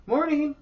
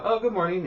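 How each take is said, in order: First: High sing-song morning greeting; mock cheery lady. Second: High bright mock greeting; cheery greeting. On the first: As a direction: chirp it like an overly cheery lady. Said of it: "she was all super, like, all cheery". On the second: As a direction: greet her sweetly in a high voice. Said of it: "and I go".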